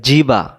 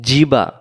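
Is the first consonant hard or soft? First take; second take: hard; hard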